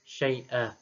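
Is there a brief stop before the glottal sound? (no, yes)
no. The word flows smoothly with no stop inside. "Syai'a tanpa saktah"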